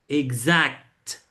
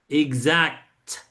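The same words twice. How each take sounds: The two takes are said the same way.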